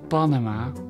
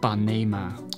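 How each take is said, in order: First: The second vowel sounds like 'a'. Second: The second vowel sounds like 'e'. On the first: This is how most people say it. The speaker calls it wrong. "niet Panama, want dat zegt iedereen" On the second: This is the form the speaker prefers. The speaker calls it right.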